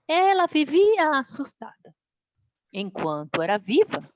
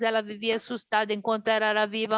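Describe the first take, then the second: First: There is a clear pause after assustada. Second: It runs on with no pause after assustada. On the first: The phrase 'while she was alive' describes the mother. The speaker calls it right. "Agora vamos respeitar as pausas do texto conforme os pontos" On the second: The phrase 'while she was alive' describes the girl. The speaker calls it wrong. "Se eu ler o texto sem dar os sinais de pontuação, ele fica assim"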